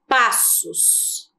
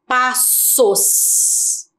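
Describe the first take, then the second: First: Said in the usual way. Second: "Passos" slowly split, pas, sos, with long hissed s; strong S sound. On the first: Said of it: "A palavra passos". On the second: Shown as a demonstration. Teacher introduces double S to pupils, "Passos" stretched and hissed. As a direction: draw out both syllables and the s in "Passos". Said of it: "Ficou um som forte".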